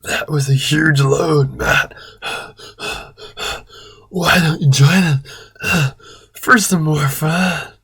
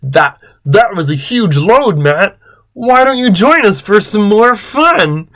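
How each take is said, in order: First: Hammed-up breathless panting; Chris. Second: Full-voiced character line, not breathless; high, swooping playful invitation; Chris. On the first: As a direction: pant between phrases, nearly whispering. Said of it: "Chris said in a breathless voice". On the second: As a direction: invite in a put-on voice, climbing high. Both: A narrator's reading.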